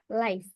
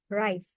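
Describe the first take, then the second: First: It is said with a Korean accent. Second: It is said with an American accent. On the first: "in Korean pronunciation" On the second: "and in American"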